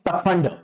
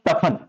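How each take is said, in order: First: The word ends with a final d sound. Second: The word ends with an n sound, no d. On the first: The speaker calls it right. "वो शब्द होता है क्या है?" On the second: The speaker calls it wrong. "ड की बजाय क्या बोलते हैं? न"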